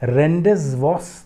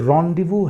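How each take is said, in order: First: It is read as spelled, ending in an 's'. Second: It sounds like 'rondivoo', with no final 's'. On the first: The speaker calls it wrong. "ये रेंडेज वॉस नहीं पढ़ेंगे किसी भी सूरत में" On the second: The speaker calls it right. "ये रॉन्डिवू है।"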